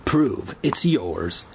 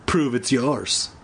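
First: Very slow, taunting repeat; slow smug repeat. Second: Slow, grinning challenge; smug grin. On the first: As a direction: drag it out to taunt. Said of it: "flashing the others a grin". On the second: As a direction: tease him with a smirk. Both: A narrator's reading.

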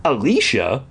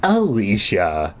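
First: Name lifted into a question, "Alicia?"; questioning echo. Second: Slow, musing repeat of the name; pondering. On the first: Counselor checks the girl's name, "Alicia?" rising as a question. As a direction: ask "Alicia?" with a rising end. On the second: Counselor searches memory for the girl, slowly pondering. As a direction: draw the name out while thinking. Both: A narrator's reading.

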